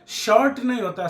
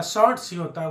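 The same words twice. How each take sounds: First: shirt with no final s, emphatic and falling; rejected singular. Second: shorts with a clear final s, settling down; stress on shorts. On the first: Teacher ruling out the singular, emphatic on shirt. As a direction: hit shirt, then deny it with नहीं. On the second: Teacher correcting to the plural, stressing shorts. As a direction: land on shorts as the right form. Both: Shown as a demonstration.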